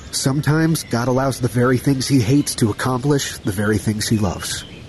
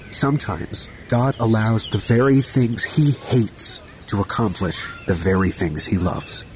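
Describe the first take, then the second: First: It is said at a normal speed. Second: It is said slowly.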